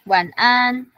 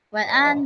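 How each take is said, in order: First: The syllables are drawn out long. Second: The syllables are said short and quick. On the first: This is how to say it for practice. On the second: This is how native speakers say it. "dia bakal bilang wan an"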